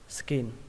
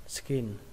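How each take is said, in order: First: The vowel is short and clipped. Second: The vowel is short and clipped.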